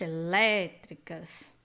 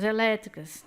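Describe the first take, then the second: First: "elétricas" slowly, with the "lé" drawn out; slow, low demonstration of the strong "lé" in "elétricas"; stress on LÉ. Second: Said in the usual way. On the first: Shown as a demonstration. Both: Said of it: "também com som forte".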